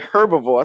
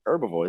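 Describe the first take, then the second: First: The word begins with an audible H sound. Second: The word begins without any H sound. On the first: This is how someone else says it. The speaker calls it wrong. "I heard him say herbivore" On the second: This is the form the speaker considers correct. The speaker calls it right. "no, it's herbivore"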